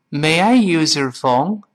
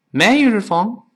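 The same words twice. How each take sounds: First: Slow, "use" and "your" kept apart; slow careful read. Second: Quick, higher, "use your" run together into one sound; fast, linked casual English; fast casual speech. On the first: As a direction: read it slowly and clearly. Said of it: "我们慢慢读是这么来说的". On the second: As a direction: toss it off quickly like everyday talk. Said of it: "语速特别快，往往会出现这么一个声音". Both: Shown as a demonstration.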